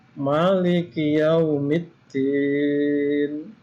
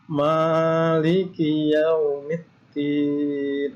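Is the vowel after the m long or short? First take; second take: short; long. First: The vowel after the m is short. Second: The vowel after the m is long. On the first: "itu boleh memnya dibaca pendek" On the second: "Tapi boleh juga"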